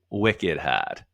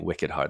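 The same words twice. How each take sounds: First: It is said in a New England accent. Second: It is said in a standard American accent. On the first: "It's called a New England accent. ... they say it's wicked hard" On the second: "instead of saying wicked hard"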